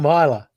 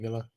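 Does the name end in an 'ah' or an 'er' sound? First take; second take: ah; er. First: The name ends with an open 'ah' vowel. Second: The name ends with an 'er' vowel. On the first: The speaker calls it wrong. "as I like to pronounce it wrong" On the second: The speaker calls it right. "but it's actually Miller"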